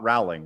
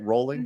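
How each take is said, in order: First: The name does not sound like rolling. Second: The name sounds like the word rolling. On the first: The speaker calls it wrong. "not Rowling" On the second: The speaker calls it right. "That's that's how we say it, Rolling"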